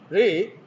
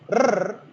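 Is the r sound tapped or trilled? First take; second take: tapped; trilled. First: The r is a single quick tap. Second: The r is a rolled, repeated trill. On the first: "that is tap" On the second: "that is trill"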